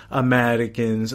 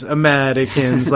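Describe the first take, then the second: First: Said in the usual way. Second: Slower and louder, stretching Americans; drawn-out fond exclamation. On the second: Retold or imitated. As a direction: lean into Americans with amused affection. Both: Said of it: "like that".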